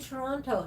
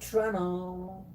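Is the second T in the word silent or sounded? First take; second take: sounded; silent. First: The second T is clearly pronounced. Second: The second T is dropped. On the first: The speaker calls it right. "it's supposed to be Toronto" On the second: The speaker calls it wrong. "not Toronto"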